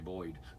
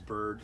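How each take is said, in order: First: The vowel glides like 'oy' in boy. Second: The vowel is a plain 'er' sound. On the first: This is how locals say it. "We say Boyd" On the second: This is how people elsewhere say it. "everybody else says Bird"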